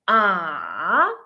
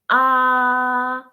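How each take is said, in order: First: The pitch falls and then rises again. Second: The pitch stays level and steady throughout. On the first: "The third tone ... should be fallen and then rising" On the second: "the first tone ... it's flat and straight"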